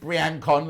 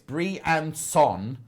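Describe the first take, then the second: First: The name is said with English-style sounds. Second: The name is said with French-style sounds. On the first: The speaker calls it wrong. "we don't say Briancon" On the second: The speaker calls it right. "It's Briançon"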